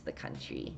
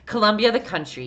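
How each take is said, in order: First: The country whispered. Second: Colombia, the country with the country stressed, a bit louder. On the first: Streamer whispers a dry aside to chat. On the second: Streamer corrects chat about Colombia, emphatic. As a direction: spell it out for the confused. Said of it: "Yes, the country". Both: Shown as a demonstration.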